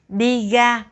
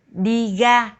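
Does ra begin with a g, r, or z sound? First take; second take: g; g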